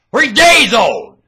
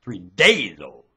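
First: High, slow, very loud yell; slow bellow on a high pitch; drawn-out shout. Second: Said in the usual way. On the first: Real, not acted. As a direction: stretch it out at full voice. Repeats it as a shout.

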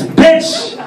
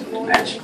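First: High, punched-out mock insult; defiant insult. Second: Very soft insult under the breath; muttered insult. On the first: Santa talking back to his wife, high defiant punch. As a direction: throw it out high and bold. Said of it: "And I'm all like". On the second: Acted. Meek husband once his wife is obeyed, very soft mutter. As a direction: slip it out barely audible.

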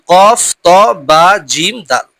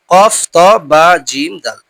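The two takes are said the same way.

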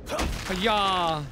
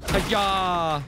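Both takes have the same delivery.

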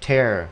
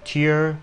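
First: "Tear" said TAIR, with an open e; TAIR, demonstrated as a separate word; tear as in rip. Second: "Tear" said TEER, higher, with an ee glide; TEER, pitched up for demonstration; tear as in crying. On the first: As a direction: say "Tear" to rhyme with "air". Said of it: "là xé". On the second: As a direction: say "Tear" to rhyme with "here". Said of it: "nước mắt". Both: Shown as a demonstration.

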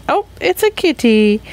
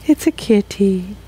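First: High cooing voice for the cat. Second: Softer, cooing cat voice. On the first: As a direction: coo it to the kitty. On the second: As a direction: murmur it to the kitty. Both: Pretend. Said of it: "Again, cat voice".

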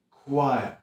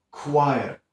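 The two takes are said the same way.

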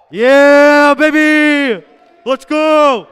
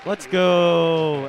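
First: Loud, high wild cheer; excited cheering. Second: Said in the usual way. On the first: Real, not acted. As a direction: celebrate at the top of your lungs.

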